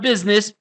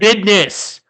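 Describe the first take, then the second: First: The word is said in its ordinary standard way. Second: The word is said in a slangy, altered way. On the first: "not business" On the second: "He said business, ... He, he code switched"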